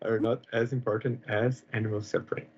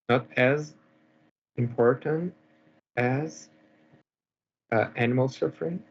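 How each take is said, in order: First: It is said more quickly. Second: It is said at a normal, unhurried pace.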